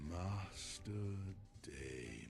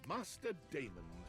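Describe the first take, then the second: First: It is said in a sexy, seductive voice. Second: It is said in a plain British voice.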